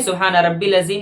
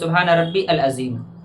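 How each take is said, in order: First: Rabbi runs into al as one short rabbil. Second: Rabbi and al are said as separate words. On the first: "ना कि सुबहान रब्बिल अज़ीम" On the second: "या सुबहान रब्बी अल अज़ीम"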